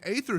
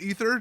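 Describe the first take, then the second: First: The word is said differently from plain 'ether'. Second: The word is said as plain 'ether'. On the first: The speaker calls it wrong. "I'm just going to pronounce it incorrectly on purpose" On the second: The speaker calls it right. "it is pronounced ether"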